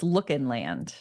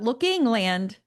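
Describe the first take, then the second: First: The middle part is said as a reduced 'in'. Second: The middle part is said with a full 'ing'. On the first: The speaker calls it right. "it's Lookin' Land" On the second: The speaker calls it wrong. "it's not Looking Land"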